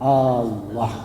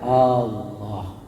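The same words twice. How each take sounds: First: It is said softly and slowly. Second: The same.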